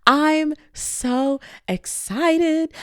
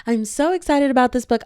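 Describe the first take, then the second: First: Very slow, high, drawn-out squeal of excitement; excited gush. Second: Said in the usual way. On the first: Real, not acted. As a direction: stretch every word out in delight. Gushing about the book.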